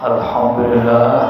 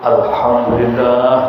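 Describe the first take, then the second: The two takes are said the same way.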